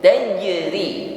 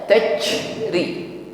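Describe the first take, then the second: First: The j bounces with a voiced letter sound. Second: The j bounces with a puff of air. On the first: The speaker calls it right. "bukan angin yang memantul tetapi bunyi hurufnya" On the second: The speaker calls it wrong. "bukan angin yang memantul"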